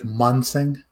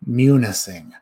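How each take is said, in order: First: The name is clipped, a middle syllable dropped. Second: The name is said in full, every syllable.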